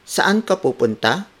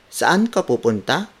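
No difference in how they are said.

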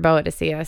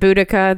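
First: The name is said as Boadicea. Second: The name is said as Boudica. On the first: This is how the speaker has always heard it. "I've always heard Boa Dicea" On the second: This is how others say the name. "they pronounce it Boudica"

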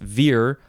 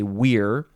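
First: It is pronounced the English way. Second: It is pronounced the Latin way.

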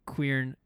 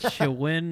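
First: It starts with a 'kw' sound and has an r. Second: It starts with a 'ch' sound and has no r. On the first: The speaker calls it right. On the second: The speaker calls it wrong.

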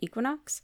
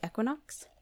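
First: It is said with a North American accent. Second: It is said with a British accent. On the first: "in our North American accents, we usually say equinox" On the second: "the British accents, I'll say equinox"

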